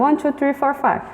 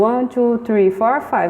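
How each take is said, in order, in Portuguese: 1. Os números são contados em ritmo rápido. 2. Os números são contados em ritmo médio. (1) "Mais rápido. ... Até me engasguei" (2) "Mais rápido"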